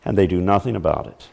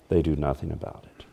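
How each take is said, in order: First: Said in the usual way. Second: "They do nothing about it" dropped to a near hush; soft repeat. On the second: Shown as a demonstration. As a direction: echo it much softer, letting it sink in. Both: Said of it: "repeated line, second much softer".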